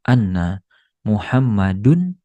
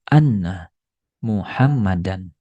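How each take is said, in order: First: The name ends with -dun. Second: The name ends with -dan. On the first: The speaker calls it wrong. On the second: The speaker calls it right. "membuat kata setelahnya dibaca menjadi fathah"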